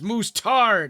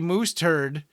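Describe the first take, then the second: First: The second syllable sounds like tard, not turd. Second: The second syllable sounds like the word turd. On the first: It is the name the makers want. The speaker calls it right. "It's like no, it's moose tard" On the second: It sounds like animal droppings. The speaker calls it wrong. "if you say moose turd, they get really mad at you"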